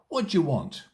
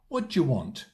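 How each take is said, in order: First: The words are reduced and run together. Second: The same.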